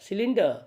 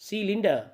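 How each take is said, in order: No difference in how they are said.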